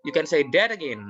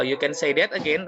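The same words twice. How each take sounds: First: "You can say that again" as a firm exclamation, falling at the end. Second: "You can say that again" with a questioning rise at the end; asked as a question. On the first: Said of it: "sudah jelas-jelas exclamation". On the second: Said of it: "intonasinya menuju ke pertanyaan". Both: Shown as a demonstration.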